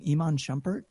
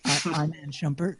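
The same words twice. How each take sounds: First: The first name does not begin with 'eye'. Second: The first name begins with an 'eye' sound.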